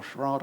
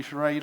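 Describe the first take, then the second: First: Charade said as shuh-RAHD; alternative pronunciation. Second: Charade said as shuh-RAYD; alternative pronunciation. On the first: Offering viewers the other option for the film title, Charade as shuh-RAHD. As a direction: say Charade with a broad AH, rhyming with hard in British English. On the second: Offering viewers one option for the film title, Charade as shuh-RAYD. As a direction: say Charade with a long AY, rhyming with made. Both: Shown as a demonstration. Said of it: "however you want to pronounce it".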